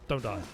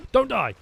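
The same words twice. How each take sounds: First: Said in the usual way. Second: High, loud cry of Don't die; panicked high shout; urgent plea. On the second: Real, not acted. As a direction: yell Don't die at the screen in alarm. Urging the game character.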